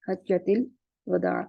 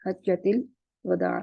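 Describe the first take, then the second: First: It has an a after h and after w. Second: The same.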